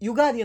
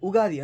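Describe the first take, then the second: First: The word begins with a 'yoo' sound. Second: The word begins with a plain 'oo' sound. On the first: This is how it is said in Karnataka. "ನಮ್ಮ ಕರ್ನಾಟಕದಲ್ಲಿ ನಾವು ಯುಗಾದಿ ಅಂತ pronounce ಮಾಡ್ತೀವಿ" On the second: This is how it is said in Andhra and Telangana. "Andhra and ತೆಲಂಗಾಣದಲ್ಲಿ ಉಗಾದಿ ಅಂತ pronounce ಮಾಡ್ತಾರೆ"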